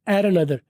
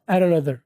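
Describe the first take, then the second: The two takes are said the same way.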